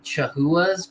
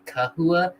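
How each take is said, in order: First: The word begins with a soft ch sound. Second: The word begins with a hard k sound. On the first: This is how most people say it. "Most people call them" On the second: This is the technically correct form that nobody uses. "pronounced with a like a hard C, like a K"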